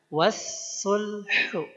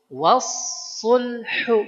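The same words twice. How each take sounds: First: The s is said thin and light. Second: The s is said thick and heavy. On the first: The speaker calls it wrong. "bukan was-sulhu" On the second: The speaker calls it right. "Bacanya harus was-sulhu"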